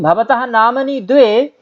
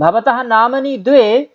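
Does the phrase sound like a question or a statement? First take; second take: question; question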